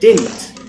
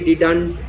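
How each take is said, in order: First: The second d sound is left silent. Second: The second d sound is clearly pronounced. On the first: The speaker calls it right. "it's pronounced as didn't" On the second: The speaker calls it wrong. "Some people say didn't, didn't, didn't. It's wrong"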